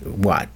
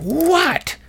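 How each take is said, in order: First: Said in the usual way. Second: Sharp high-pitched mock yell of "What?"; nurse's yell. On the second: Annoyed night nurse yelling "What?" at her patient, high mock yell. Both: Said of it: "Literally yelled at me".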